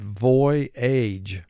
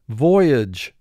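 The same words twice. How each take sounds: First: The final syllable is said fully, as spelled. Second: The final syllable is said normally and reduced. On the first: This pronunciation helps with spelling. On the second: This is the everyday pronunciation.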